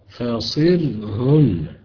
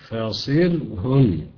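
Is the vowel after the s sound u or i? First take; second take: i; i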